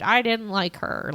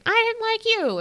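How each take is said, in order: First: Lightly voiced interviewee, near usual pitch; husband's quote. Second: Very high bickering comeback; wife's retort. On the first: Recapping the couple's interview, his understated side. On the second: Retold or imitated. Recapping the couple's interview, her high mock retort. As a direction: mimic the wife answering back, pitched way up. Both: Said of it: "and they're like".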